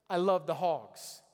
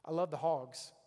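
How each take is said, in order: First: Slow, louder, fervent declaration; excited fan. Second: Said in the usual way. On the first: Shown as a demonstration. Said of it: "I'm gonna get excited". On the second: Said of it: "when something good happens".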